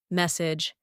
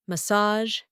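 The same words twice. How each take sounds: First: "Message" with a j ending, first syllable stressed; hard word ending. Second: "Massage" with soft zh, second syllable stressed; soft word ending. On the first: Teacher comparing two words, j ending in "Message". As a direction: say "Message" as MESS-ij. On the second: Teacher comparing two words, soft zh in "Massage". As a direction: say "Massage" as muh-SAHZH. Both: Shown as a demonstration. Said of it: "Compare these words".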